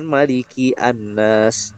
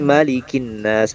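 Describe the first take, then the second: First: The article's vowel is pronounced as a separate syllable. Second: The article's vowel is dropped and the words link. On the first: The speaker calls it wrong. "bukan maliki annas" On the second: The speaker calls it right. "Jadi malikin nas"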